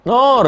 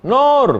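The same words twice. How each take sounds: First: "Nur" called high and loud, as if from another room; calling Nur. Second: "Nur" called again, higher still and loud, more insistent; calling again. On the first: Mother calls Nur, who does not answer, loud high call. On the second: Mother calls unanswering Nur a second time, higher call. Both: Retold or imitated.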